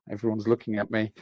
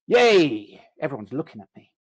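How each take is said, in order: First: It sounds fearful and anxious. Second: It sounds excited and thrilled.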